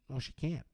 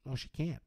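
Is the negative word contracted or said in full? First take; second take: contracted; contracted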